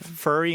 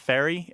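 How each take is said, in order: First: It has the local Mid-Atlantic vowel. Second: It has the general American vowel. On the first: "furry instead of" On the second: "instead of fairy"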